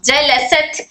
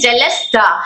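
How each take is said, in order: First: The word ends on a bare t sound. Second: The word ends with a vowel after t. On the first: The speaker calls it right. "ये ता के ऊपर जो साकिन आया है" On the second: The speaker calls it wrong. "साकिन को मुतहर्रिक"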